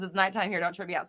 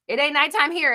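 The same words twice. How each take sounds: First: Said in the usual way. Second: Loud retort. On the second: Real, not acted.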